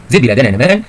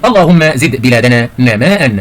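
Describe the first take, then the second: First: Said in the usual way. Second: Slow, drawn-out example sentence; slow model reading. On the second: Shown as a demonstration. Teacher reads the exercise sentence to pupils, slow model reading. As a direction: read it out slowly, stretching نماء.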